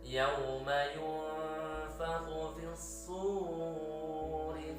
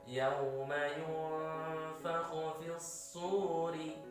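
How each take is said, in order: First: The long vowel in suri is stretched too long. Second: The long vowel in suri lasts two beats. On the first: The speaker calls it wrong. "Tidak boleh dibaca ... itu kepanjangan" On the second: The speaker calls it right. "cukup sekali ayunan"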